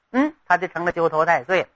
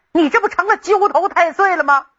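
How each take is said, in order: First: Said in the usual way. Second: Exasperated scolding. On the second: Acted. Emperor scolding the troublemaking grandson.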